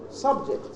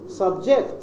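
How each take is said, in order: First: The stress is on the first syllable. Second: The stress is on the second syllable. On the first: It is used as a noun. "It is the first syllable stressed" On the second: It is used as a verb. "Subject is the verb"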